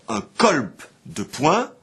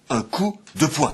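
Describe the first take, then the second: First: The first word has an o followed by l. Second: The first word has a plain oo vowel. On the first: This is the oldest form of the word. "On disait jusqu'alors" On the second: This is the modern form of the word. "et ensuite"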